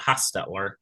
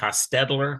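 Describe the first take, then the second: First: The first vowel is a short O. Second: The middle consonant is a D sound. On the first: "Some people pronounce it" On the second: "with a D"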